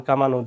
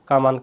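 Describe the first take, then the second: First: কামানো said as "kamano" with a rounded last vowel; teacher's model of কামানো ending in "no"; added o ending. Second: Said in the usual way. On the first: Shown as a demonstration. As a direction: finish কামানো on a clear o. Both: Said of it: "উকারের মতো হবে".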